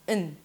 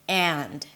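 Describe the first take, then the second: First: The word has a schwa and no final d. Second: The word has a full vowel and a final d. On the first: The word sits inside a sentence. "instead of and, we say un. Notice that I also drop the d" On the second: The word is stressed and standing alone. "this word is stressed, is pronounced alone"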